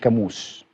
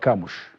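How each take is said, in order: First: The name ends with an s sound. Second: The name ends with an sh sound. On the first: The speaker calls it wrong. "مش كاموس" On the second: The speaker calls it right. "النطق الصحيح ... هو كاموش"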